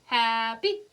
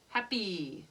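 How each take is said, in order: First: "Happy" with a drawn-out first syllable, short rising second; long-short rhythm. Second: "Happy" with a quick first syllable, long falling second; short-long rhythm. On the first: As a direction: stretch the "Hap" of "Happy", cut "py" short. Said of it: "Is it a Timka?". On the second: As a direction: clip "Hap" and hold "py" in "Happy". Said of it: "is it the new note?". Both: Shown as a demonstration.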